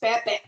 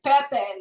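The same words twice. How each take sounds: First: The final vowel is cut off abruptly. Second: The final vowel ends smoothly without a stop. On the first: The speaker calls it right. "may hard stop siya... hard stop in the end" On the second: The speaker calls it wrong. "instead of like Pepe, like Pepe and Pilar"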